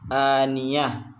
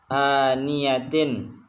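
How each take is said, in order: First: The word ends with a soft h sound. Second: The word ends with a -tin syllable. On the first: The reader stops at this word. "Kalau berhenti menjadi aniyah" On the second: The reader continues past this word. "Seperti contoh aniyatin"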